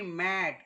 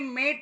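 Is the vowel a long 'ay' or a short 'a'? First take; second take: short a; long ay. First: The vowel is a short open 'a' sound. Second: The vowel is a long 'ay' sound. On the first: The speaker calls it right. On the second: The speaker calls it wrong. "मेट नाही"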